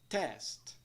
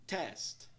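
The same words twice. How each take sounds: No difference in how they are said.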